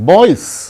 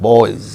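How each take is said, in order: First: The final sound is a hissing s. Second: The final sound is a buzzing z. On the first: The speaker calls it wrong. "it is not" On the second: The speaker calls it right. "it is"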